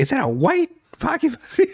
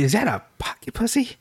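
First: Higher still, leaning hard on white; mock shriek peaking on white; even madder. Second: High, hushed outraged question; hammed-up high scandalized girlfriend; mad girlfriend. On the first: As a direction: spit out white in outrage. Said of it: "Not only was she mad". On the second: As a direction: catch him in the act, appalled. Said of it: "first she was mad".

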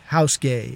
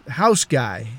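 First: "gay" with an AY vowel, in place of "guy"; punning pronunciation. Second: Said in the usual way. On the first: Shown as a demonstration. Narrator renaming the house guy, punning "gay" with AY vowel. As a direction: slip in "gay" as a lower, deliberate pun. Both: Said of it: "if you like".

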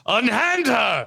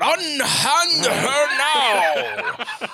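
First: Slow, high theatrical knight; hammy stage actor. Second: Very slow, drawn-out, high declaiming; hammy stage actor. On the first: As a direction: declaim like a stage hero. Mock knight stage line. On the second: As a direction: stretch it out like ham actor. Mock knight stage line repeated. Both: Pretend.

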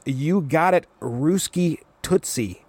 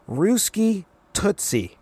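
First: Slow cocky drawl of Ruski Tootsie; a lightly voiced brash teen; drawn-out smug nickname. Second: Ruski Tootsie slowly, pitched way up; exaggerated high sing-song Ruski Tootsie; mock squeaky taunt; higher mocking. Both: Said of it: "Wheeler goes".

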